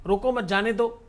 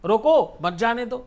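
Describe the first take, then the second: First: "रोको मत" run together, then "जाने दो"; group "मत" with "रोको", meaning let them go; phrasing demo. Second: "रोको" set apart, then "मत जाने दो"; pause after रोको. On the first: Guru shows listener one phrase's two meanings, "रोको मत" kept as one unit. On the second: Guru shows listener the opposite meaning, pausing after "रोको". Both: Shown as a demonstration. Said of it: "एक ही शब्द के कई सारे अर्थ".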